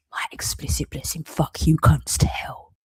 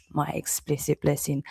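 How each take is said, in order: First: Bitter whispered curse. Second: Said in the usual way. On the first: Real, not acted.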